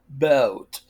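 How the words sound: It is said in a British accent. "In British English ... You say boat"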